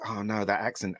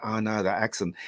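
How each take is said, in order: First: Softer, dismayed oh no; a quiet groan of dismay. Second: Softer, weary oh no; a quiet, resigned groan; dismayed groan again. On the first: First hearing Jodie's accent, a soft dismayed groan. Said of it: "I was like". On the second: Second viewing of the accent, a soft resigned groan. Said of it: "I went". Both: Retold or imitated.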